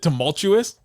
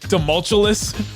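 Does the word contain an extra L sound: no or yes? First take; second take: no; yes. First: The word is said without an extra L sound. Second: The word is said with an extra L sound. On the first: The speaker calls it right. "Isn't it tumultuous?" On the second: The speaker calls it wrong. "I think he put another L in there somewhere"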